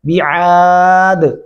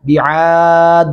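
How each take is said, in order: First: The final d has an echoing bounce. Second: The final d has no echoing bounce. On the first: The speaker calls it right. "یہاں پہ کلکلا ہے، بعاد ایسے کرنا ہوگا" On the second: The speaker calls it wrong. "بعاد ایسے نہیں کرنا"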